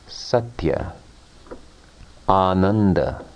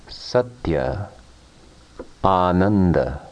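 No difference in how they are said.

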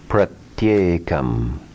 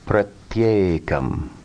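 First: The words are joined with a y sound. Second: The words are joined with a y sound.

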